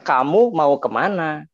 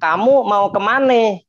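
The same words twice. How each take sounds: First: It is spoken in a standard Indonesian accent. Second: It is spoken in a Betawi accent. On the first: "Ini ini Indonesia baku" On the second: "Orang-orang Betawi gitu"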